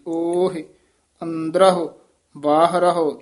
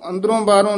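First: Both words end in a short 'ah' sound. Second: Both words end in a nasal 'on' sound. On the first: The speaker calls it right. "ਸਿੱਧਾ ਹੀ ਹਾਹੇ ਹਨ ਔਂਕੜ ਲੱਗੇ ਹੋਏ ਨੇ" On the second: The speaker calls it wrong. "ਇਹਨੂੰ ਅੰਦਰੋਂ ਬਾਹਰੋਂ ਨਹੀਂ ਕਹਿ ਦੇਣਾ"

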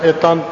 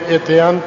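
First: No 'i' sound follows the t. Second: An 'i' sound follows the t. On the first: The speaker calls it wrong. "ਇਤੰਤ ਨਹੀਂ ਪੜ੍ਹਨਾ ਹੈ" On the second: The speaker calls it right. "ਇਹ ਵੀ ਇਤਿਅੰਤ ਬੋਲਣਾ"

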